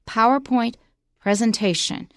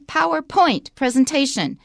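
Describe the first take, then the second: First: The stress falls on Power in PowerPoint. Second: The stress falls on point in PowerPoint. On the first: The speaker calls it right. "It's just one word, so point is not stressed" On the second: The speaker calls it wrong. "Don't say PowerPoint presentation"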